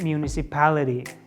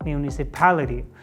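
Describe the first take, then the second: The two takes are said the same way.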